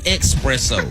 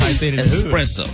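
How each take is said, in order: First: The word begins with an 'eks' sound. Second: The word begins with an 'es' sound. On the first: The speaker calls it wrong. "There's no X in it. It's not espresso" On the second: The speaker calls it right. "It's espresso"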